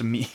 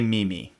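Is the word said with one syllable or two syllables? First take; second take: one syllable; two syllables. First: It sounds like one syllable, like 'meem'. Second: It sounds like two syllables, like 'mee-mee'. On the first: The speaker calls it right. "It's pronounced meme" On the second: The speaker calls it wrong. "definitely don't say meme. That's because that's how it's spelled"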